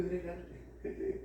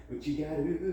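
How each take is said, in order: First: Higher, softer put-on voice. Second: Said in the usual way. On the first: Mocking herself over the feedback form, higher, softer put-on voice. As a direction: repeat it in a silly, higher, quieter voice.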